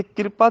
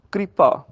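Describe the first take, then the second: First: First ਕਿਰਪਾ as kir-pa; wrong syllables. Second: ਕਿਰਪਾ as kri-pa; i after r. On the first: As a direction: put i before r in ਕਿਰਪਾ. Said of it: "ਦੀ ਬਜਾਏ". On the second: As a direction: join k and r, then i in ਕਿਰਪਾ. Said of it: "ਰਾਜੇ ਨੂੰ ਸਿਆਰੀ". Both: Shown as a demonstration.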